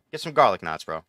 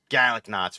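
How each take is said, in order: First: Garlic knots with a full r in garlic; casual New York accent on garlic knots. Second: Garlic knots as kalik knots, no r; a hint of a Boston accent on garlic knots. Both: Shown as a demonstration. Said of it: "We don't say it like that".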